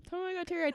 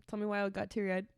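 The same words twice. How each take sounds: First: High-pitched, baffled self-questioning; mock disbelief. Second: Said in the usual way. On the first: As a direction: repeat it much higher, comically incredulous. Repeats it higher, baffled at herself.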